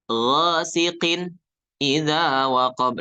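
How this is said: The phrase is broken off with a break. The speaker calls it wrong. "ini salah. Jangan diputus"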